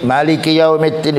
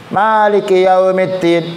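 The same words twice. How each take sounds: First: The first vowel of maliki is short. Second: The first vowel of maliki is long.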